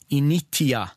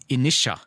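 First: The middle consonant is a clear t sound. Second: The middle consonant is a soft sh sound. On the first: "mens du sa initia" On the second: "så sa jeg inisha"

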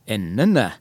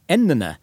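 First: The high tone comes later in the word. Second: The high tone comes right at the start. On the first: "så har jeg en høy tone som ligger litt lenger ute, og det er min tonelag 2-melodi" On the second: "så har jeg en høy tone helt til å begynne med, og det er min tonelag 1-melodi"

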